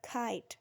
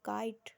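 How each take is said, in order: First: The first k has a strong puff of air. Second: The first k has no puff of air. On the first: The speaker calls it right. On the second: The speaker calls it wrong. "काइट नहीं"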